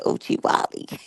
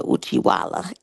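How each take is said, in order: First: "Uchiwali" ending in "-li"; "Uchiwali" with the "-wali" ending; corrected pronunciation. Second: "Uchiwala" ending in a clear "-la"; "Uchiwala" with the last vowel as "ah"; mispronounced. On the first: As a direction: say "Uchiwali" with a final "ee" sound. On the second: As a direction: say "Uchiwala" with a final "-wala". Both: Shown as a demonstration. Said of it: "I'm used to my urban, um, thing".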